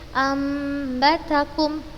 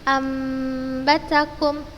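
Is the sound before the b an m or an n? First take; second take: m; m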